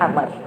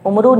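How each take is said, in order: First: The name begins with an 'a' vowel, no final vowel. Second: The name begins with a 'u' vowel, ending in 'u'. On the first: The speaker calls it right. "इसको पढ़ेंगे अमर" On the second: The speaker calls it wrong. "उमरू नहीं पढ़ेंगे"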